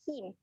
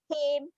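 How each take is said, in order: First: The vowel is a close 'ee' sound. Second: The vowel is an open 'eh' sound. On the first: The speaker calls it right. "Bunyi huruf I" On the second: The speaker calls it wrong. "Salah eh"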